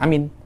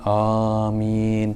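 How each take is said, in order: First: The vowel is said short. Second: The vowel is drawn out long. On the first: The speaker calls it wrong. "bukan amin. Bukan macam itu" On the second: The speaker calls it right. "Suaranya panjang"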